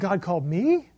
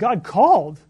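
First: The stress is on me. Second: The stress is on called.

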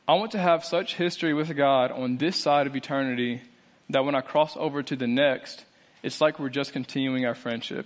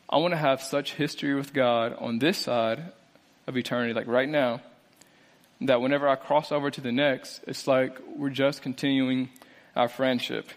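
First: It is read at a normal speed. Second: It is read a little more slowly.

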